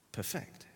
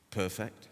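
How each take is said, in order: First: "perfect" stressed on FECT, said as a verb, hushed; perFECT, weight on the last syllable; stress on second syllable. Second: "Perfect" stressed on PER, said as an adjective; PERfect, weight on the first syllable, softer. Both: Shown as a demonstration. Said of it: "Two different things".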